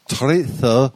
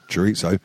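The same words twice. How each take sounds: First: It is said with a Spanish-style pronunciation. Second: It is said with an English-style pronunciation.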